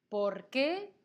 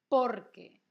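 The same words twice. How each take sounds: First: "¿Por qué?" loud, lifting at qué; question stress on QUÉ. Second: "Porque" with a very loud por, then falling; answer stress on POR. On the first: Teacher repeating the question word, "¿Por qué?" rising on stressed qué. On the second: Teacher repeating the answer word, "Porque" stressed on por and falling. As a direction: hit por hard in "Porque", que drops. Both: Shown as a demonstration. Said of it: "fíjate que no lo pronuncio igual".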